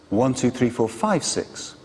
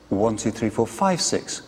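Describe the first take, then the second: The two takes are said the same way.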